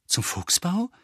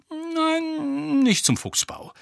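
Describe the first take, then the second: First: Mildly eager, rising question; hopeful. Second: High, drawn-out no, then falling; Lupin's denial. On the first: Harry asking where they are going, hopeful. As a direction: lift it at the end with hope. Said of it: "fragte Harry hoffnungsvoll". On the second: Lupin answering Harry's guess, high voice falling. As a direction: let him down with a falling tune. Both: A narrator's reading.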